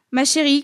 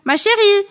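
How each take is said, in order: First: Said in the usual way. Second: High, loud mock call; mimicking the mother. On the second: Schoolmates imitating her mother in front of everyone, mocking yell. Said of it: "Ce serait à qui imiterait le mieux".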